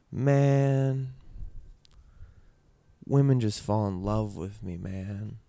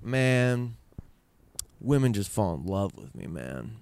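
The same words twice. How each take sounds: First: Wistful, drawn-out quote with a trailing end; a touch of sadness in the retold boast; sad imitation. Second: Slow, self-satisfied boast with the last word dropped very low; smug boast. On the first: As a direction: imitate dad's line with a sad, mournful color. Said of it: "I made that sound sad 'cause I got sad". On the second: Retold or imitated. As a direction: lightly imitate a smug dad bragging. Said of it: "but he said it more like".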